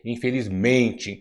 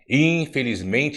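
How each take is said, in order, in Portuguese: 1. A tônica cai na sílaba 'men'. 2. A tônica cai em outra sílaba, não em 'men'. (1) "é infelizmente" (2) "Infelizmente não existe"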